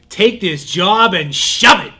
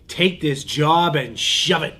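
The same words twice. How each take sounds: First: It is shouted loudly. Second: It is said more quietly.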